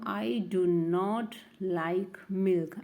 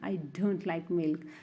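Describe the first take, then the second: First: 'Do not' is said as two full words. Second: 'Do not' is contracted into one word 'don't'.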